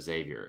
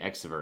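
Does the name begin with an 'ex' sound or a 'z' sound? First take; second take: z; ex. First: The name begins with a 'z' sound. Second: The name begins with an 'ex' sound. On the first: "instead of Xavier" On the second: "I would say Exiver instead of Xavier"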